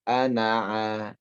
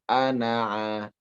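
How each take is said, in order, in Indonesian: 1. Berakhir dengan vokal a pendek. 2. Berakhir dengan vokal a pendek.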